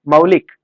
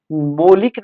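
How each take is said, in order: First: मौलिक louder, with a clear "au": "mau-lik"; correct "au" diphthong. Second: मौलिक mispronounced slowly as "molik"; wrong "o" vowel. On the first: Teacher giving the correction, मौलिक as "mau-lik". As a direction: open the first vowel of मौलिक into औ. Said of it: "मौलिक नहीं, मौलिक". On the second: Teacher showing students the error, मौलिक as "molik". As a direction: say मौलिक with a pure ओ in the first syllable. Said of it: "मौलिक नहीं". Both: Shown as a demonstration.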